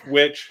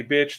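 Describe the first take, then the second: First: "Which" with a w in place of the b; "Which" as a toddler's version of the swear word; child's mishearing. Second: Said in the usual way. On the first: Retold or imitated. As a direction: say "Which", starting on a rounded w sound. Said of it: "She kept saying". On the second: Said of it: "when she heard you say".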